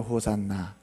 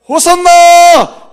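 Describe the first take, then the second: First: It is said quietly, with low energy. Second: It is shouted loudly and excitedly.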